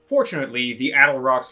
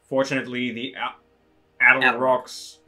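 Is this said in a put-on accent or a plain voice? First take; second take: plain; accent. First: It is spoken in a plain natural voice. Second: It is spoken in a put-on accent.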